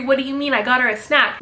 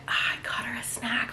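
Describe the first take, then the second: First: Said in the usual way. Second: Tiny whispered excuse; meek whisper. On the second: Retold or imitated. Nanny answering her stern boss, meek whisper. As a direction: whisper it like a cowed employee, acted.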